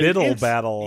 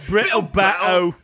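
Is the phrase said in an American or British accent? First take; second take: American; British. First: It is said in a plain American accent. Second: It is said in a put-on British accent.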